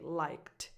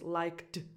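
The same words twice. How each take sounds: First: The final sound is a voiceless T. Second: The final sound is a voiced D. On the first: The speaker calls it right. "so you say liked" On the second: The speaker calls it wrong. "it's an impossible transition"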